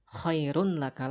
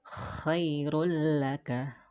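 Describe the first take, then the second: First: The n is kept before the l sound. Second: The n merges into a doubled l sound. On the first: The speaker calls it wrong. "bukan khairun laka lagi" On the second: The speaker calls it right. "akan tetapi dibacanya menjadi khairul laka"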